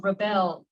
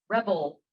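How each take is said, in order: First: "rebel" with the stress on the second syllable, ri-BEL. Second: "rebel" with the stress on the first syllable, REB-el. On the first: Reader unsure of the word tries the verb form, ri-BEL. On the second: Reader checks the other form with the group, REB-el. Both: Shown as a demonstration. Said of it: "is it rebel or rebel?".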